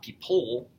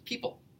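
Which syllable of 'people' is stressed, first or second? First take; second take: second; first. First: The stress is on the second syllable. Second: The stress is on the first syllable. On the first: The speaker calls it wrong. "It's not people" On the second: The speaker calls it right. "So the stress is on the first one"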